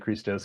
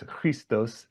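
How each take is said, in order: First: The word has a plain English pronunciation. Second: The word has an Arabic-like pronunciation. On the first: "I'll just say Christos because it's easier" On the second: "I should pr- pronounce it closer to the Arabic. It's Christos"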